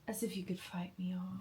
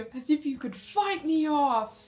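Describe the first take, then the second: First: It is said softly and gently. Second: It is said forcefully and loudly.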